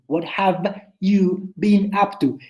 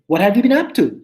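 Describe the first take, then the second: First: "What have you been up to?" said slowly, each word clear; slow it down so every sound is heard; slow careful take. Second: Said in the usual way. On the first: Shown as a demonstration. Teacher showing students the slow version of the question. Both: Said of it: "Y por más rápido que lo digan".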